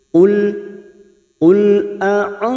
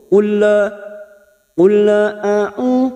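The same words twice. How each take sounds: First: The L is held cleanly without any bounce. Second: The L is released with a bouncing echo. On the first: The speaker calls it right. "cara membacanya hanya masuk" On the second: The speaker calls it wrong. "Tawalut itu seperti memantulkan. Contoh"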